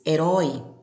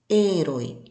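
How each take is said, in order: First: The stress falls where Portuguese places it. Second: The stress falls where Spanish places it. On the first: "No português" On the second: "mas no espanhol"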